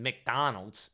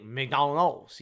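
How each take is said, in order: First: Said in the usual way. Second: McDonald's said slowly with a French accent; French-accented McDonald's, drawn out. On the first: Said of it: "like, do something French". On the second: Shown as a demonstration. French people just saying McDonald's, French accent. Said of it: "They just say McDonald's".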